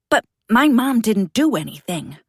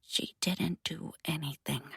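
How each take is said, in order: First: Loud, desperate denial; upset protest. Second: Flat, quiet monotone mutter. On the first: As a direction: cry out in protest. Boy protests accusation about his mom. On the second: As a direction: mutter it dead flat, no tears. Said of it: "mutters it in a monotone voice free from tears". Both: Acted.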